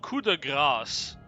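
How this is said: It is said with a French accent. "is how that's pronounced in French"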